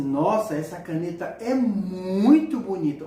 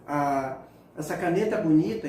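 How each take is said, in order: First: Louder and slow, with muito stretched and hit hard; emphatic muito bonita. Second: Said in the usual way. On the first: Shown as a demonstration. Teacher showing intensity to students, an emphatic muito. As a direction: lean hard on muito to show the sign is intense. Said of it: "olha a expressão como altera". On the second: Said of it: "não faz nenhuma expressão".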